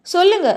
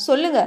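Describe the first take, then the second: First: சொல்லுங்க pushed higher and louder; insistent repeat. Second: Said in the usual way. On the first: A narrator's reading. Abhinav chasing Radha for an answer, insistent. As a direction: press the repeated சொல்லுங்க harder. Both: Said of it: "நச்சரித்து கொண்டே".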